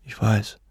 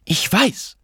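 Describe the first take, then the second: First: Said in the usual way. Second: High-pitched, angry retort; exasperated outburst without full shouting; irate cry. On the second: A narrator's reading. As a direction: cut him off indignantly, pitch jumping up. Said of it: "rief sie erbost".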